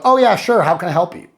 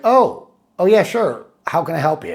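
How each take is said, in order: First: It sounds plainly friendly and willing. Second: It sounds inquisitive, wondering why you called.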